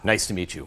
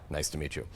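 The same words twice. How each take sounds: First: It is said with self-important, ego-driven energy. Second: It is said in a brisk, businesslike way. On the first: The speaker is focused on themselves. "you could feel that ego energy" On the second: The speaker wants to get down to business. "very businesslike"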